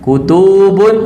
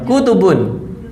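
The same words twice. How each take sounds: First: The middle vowel is held long. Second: The middle vowel is kept short. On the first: The speaker calls it wrong. "Jamaknya panjang atau pendek?" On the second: The speaker calls it right. "Pendek semua"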